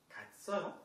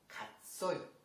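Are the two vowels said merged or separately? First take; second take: merged; merged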